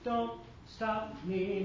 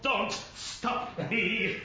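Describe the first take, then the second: First: The T is soft and dentalized. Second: The T is crisp and overly articulated. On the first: The speaker calls it right. "It's a dentalized T" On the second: The speaker calls it wrong. "No one's going to go on Queen and go"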